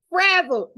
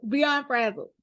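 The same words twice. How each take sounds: First: High, loud laughing burst on frazzled; frazzled spilling out in a laugh. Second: Said in the usual way. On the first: Real, not acted. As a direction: laugh the word out, exasperated. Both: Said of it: "I was just, like".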